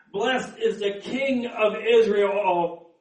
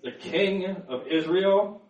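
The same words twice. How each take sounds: First: Slow, drawn-out proclamation; mildly raised voice of praise; crowd acclamation. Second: Mildly voiced questioning objection; understated challenge, lifted at the end; disapproving elders. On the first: Acted. Crowd's acclamation, later questioned by elders. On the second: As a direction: question the title as an affronted elder.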